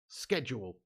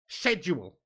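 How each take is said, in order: First: It is said with an American pronunciation. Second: It is said with a British pronunciation. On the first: The speaker calls it wrong. "That's the American way of saying it" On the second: The speaker calls it right. "The English way of saying it is schedule"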